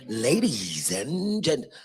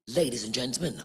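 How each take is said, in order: First: It is said with exaggerated, excessive energy. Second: It is said flatly with little energy. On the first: "that's that's a lot" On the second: "that's boring"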